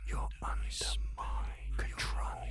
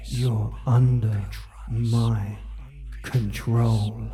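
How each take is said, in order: First: Breathy close whisper; whisper in left ear. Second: Soft, low, fading voice; soft fading murmur. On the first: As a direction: whisper right into one ear. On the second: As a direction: murmur it, softer to the end. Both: Acted. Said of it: "and whisper into your ear".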